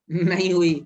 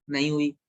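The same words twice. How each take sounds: First: A firmer "नहीं हुई", hitting "हुई" with a falling close; firm repeat. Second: Said in the usual way. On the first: Shown as a demonstration. Teacher repeating the answer firmly to the class. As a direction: drive home "नहीं हुई" with a falling finish. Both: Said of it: "तो क्या यहाँ कुछ hydrolysis हुई?".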